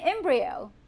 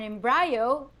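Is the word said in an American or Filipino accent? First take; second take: American; Filipino. First: It is said with an American English accent. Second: It is said with a Filipino English accent. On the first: This is how the listener's culture says it. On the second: This is how Filipinos say it.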